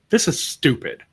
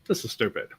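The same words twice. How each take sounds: First: It is said with anger. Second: It is said lightly, without anger.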